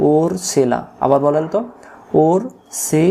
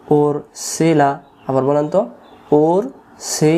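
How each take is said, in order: Both takes have the same delivery.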